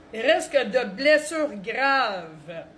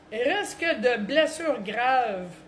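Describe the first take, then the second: No difference in how they are said.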